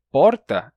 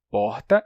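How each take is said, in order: First: "porta" with a single tapped R; older tapped R. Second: Said in the usual way. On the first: Shown as a demonstration. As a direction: tap the R in "porta" with the tongue tip. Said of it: "essa é a forma original". ("porta" com R batido, forma antiga) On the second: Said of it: "é uma forma mais recente".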